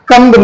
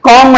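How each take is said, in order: First: The b sound is pronounced. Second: The b sound is left silent. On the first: The speaker calls it wrong. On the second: The speaker calls it right.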